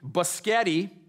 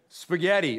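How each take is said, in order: First: It is said with a childlike mispronunciation. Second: It is said clearly with standard pronunciation. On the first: The speaker calls it wrong. "slur or mumble or mispronounce" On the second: The speaker calls it right. "becoming clearer and clearer"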